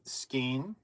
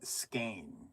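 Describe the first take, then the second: First: The vowel sounds like "ee", as in seen. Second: The vowel sounds like "ay", as in cane. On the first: "I'm Skeen with two E's" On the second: "S K A N E"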